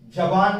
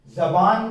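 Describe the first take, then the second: Both takes have the same delivery.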